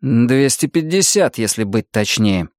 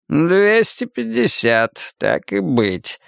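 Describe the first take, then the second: First: Measured, deliberate correction in own voice; firm declaration. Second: Slow, drawn-out concession starting high; condescendingly gracious. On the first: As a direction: state it firmly, without raising pitch much. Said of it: "громко заявил я". (твёрдое, размеренное заявление) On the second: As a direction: grant it slowly, as a favour, in an old man's voice. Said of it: "благосклонно сказал он". (благосклонно, протяжно, будто делая одолжение) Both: A narrator's reading.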